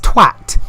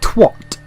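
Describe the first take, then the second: First: The word is said the British way, as spelt. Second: The word is said the American way, with an O. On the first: The speaker calls it right. "You say it like it's spelt" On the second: The speaker calls it wrong. "sounds like you're adding an O, like twat"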